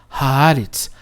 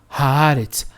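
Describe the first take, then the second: No difference in how they are said.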